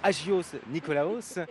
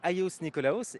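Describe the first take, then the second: First: The name is read with French pronunciation. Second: The name is said with Greek pronunciation. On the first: The speaker calls it wrong. "si je le prononce à la française" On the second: The speaker calls it right. "c'est ainsi qu'on prononce"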